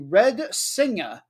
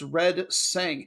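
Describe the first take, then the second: First: The name ends with an audible final vowel. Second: The name ends without the final vowel.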